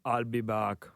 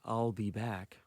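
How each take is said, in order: First: It is said in a Terminator-style accent. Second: It is said in the speaker's normal voice.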